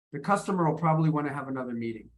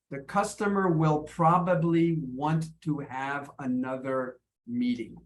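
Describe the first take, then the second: First: "The customer will probably wanna have another meeting" fast, in one linked block; natural spoken reduction. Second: "The customer will probably want to have another meeting" slowly, word by word; full "will" and "want to", as if reading written words; careful written form. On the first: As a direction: shrink "will" into "customer", slide through "wanna". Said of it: "but if I spoke it". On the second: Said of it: "if I wrote it". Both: Shown as a demonstration.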